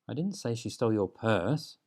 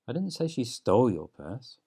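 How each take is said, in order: First: The stress falls on the word 'purse'. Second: The stress falls on the word 'stole'.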